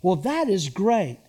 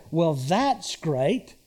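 First: "Well, that is great." said straight and sincere; mean it, plain and pleased. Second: Drip with sarcasm, slowly; sarcastic. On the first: Pastor showing the church a sincere tone. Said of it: "Here's an example". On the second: Pastor showing the church a sarcastic tone. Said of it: "Same words ... the tone is different". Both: Shown as a demonstration.

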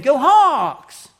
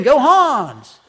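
First: Hawks said loud with a clear K at the end, as chanted. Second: Hans with an open "ah" and no K, as misheard. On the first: Pastor showing the real crowd chant at the game. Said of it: "they were saying". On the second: Pastor showing what the family misheard from the crowd. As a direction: say Hans like a crowd chant, loud. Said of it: "we weren't hearing the K". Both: Retold or imitated.

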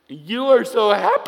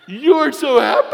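First: Shouts it out bright and high; loud, delighted outburst; loud exclamation. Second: Even higher and louder, laughing through it; louder laughing shout. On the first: Old lady calls out in the store aisle, loud and cheery. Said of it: "And she says this". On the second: Old lady repeats it down the aisle, laughing, louder. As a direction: belt it out again with a laugh. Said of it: "I wanted to hear her say it again". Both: Retold or imitated.

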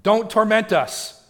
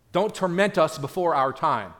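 First: Loud, high, slow desperate plea; begging demon. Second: Said in the usual way. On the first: Acted. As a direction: stretch out a frantic begging cry. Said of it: "So they're begging".

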